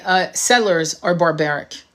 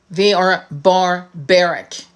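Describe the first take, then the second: First: Said in the usual way. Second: Barbaric dragged out very slowly and firmly; slow emphatic repeat. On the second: Shown as a demonstration. Repeating to viewers about settlers, slow and emphatic. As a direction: spell it out, word by word.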